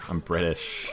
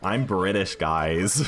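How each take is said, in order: First: Slight American accent on "British". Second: Emphatic British accent on "British". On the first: Real, not acted. UK streamer telling chat where they're from, slipping into American accent. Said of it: "said British in an American accent". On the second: Shown as a demonstration. Streamer correcting the American slip for chat, British accent. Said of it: "I don't know why I said British".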